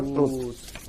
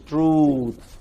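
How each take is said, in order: First: The vowel is said short. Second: The vowel is said very long. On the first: The speaker calls it wrong. "It's not truth" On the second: The speaker calls it right. "It's a very long vowel"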